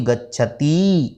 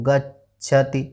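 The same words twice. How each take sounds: First: The final vowel is drawn out long. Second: The final vowel is short. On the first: "अगर दीर्घ ती होती गच्छति इस तरह बोला जाता" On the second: "अब यह पर ती है"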